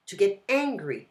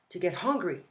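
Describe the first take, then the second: First: "angry" opened straight on the vowel, no H; teacher contrasting "angry" with no H; angry without H. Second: "hungry" with a breathy H at the start; teacher stressing the H of "hungry"; clear H in hungry. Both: Shown as a demonstration. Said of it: "It's important to pronounce the H in English".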